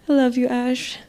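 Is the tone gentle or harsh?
gentle. It is said in a gentle, warm tone. The speaker calls it right. "like saying I love you to a little child"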